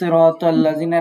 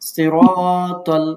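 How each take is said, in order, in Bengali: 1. দীর্ঘ স্বরটি ছোট করে পড়া হয়। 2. দীর্ঘ স্বরটি টেনে লম্বা করে পড়া হয়। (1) "এরকম বলি এক আলিফ হয় না" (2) "এতটুকু সময় তো টানতে হবে"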